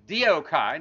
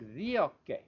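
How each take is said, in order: First: The word ends in a 'kai' diphthong sound. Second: The word ends in a plain 'e' sound. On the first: The speaker calls it wrong. "if you want it Erasmian Greek, it's diokai" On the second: The speaker calls it right. "I use the modern Greek pronunciation because it's much prettier"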